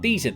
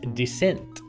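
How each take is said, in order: First: It sounds like the word 'decent'. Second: It sounds like the word 'descent'. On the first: The speaker calls it wrong. "I actually always pronounced it like decent. It's not decent" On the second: The speaker calls it right. "it's Descent"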